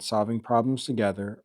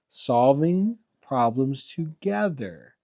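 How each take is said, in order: First: It is read quickly. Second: It is read slowly and deliberately. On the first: "You're reading that too fast" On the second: "You told me to slow it down"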